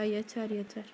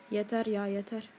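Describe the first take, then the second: First: Low, soft fed-up groan. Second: Softer and lower, defeated; fed up. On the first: Gamer worn out by a hard boss, softly fed up. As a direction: sink into a soft defeated muttering. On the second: Gamer fed up after dying again, fading. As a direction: let it fade out in frustration. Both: Real, not acted. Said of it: "konuşamıyorum artık sinirden".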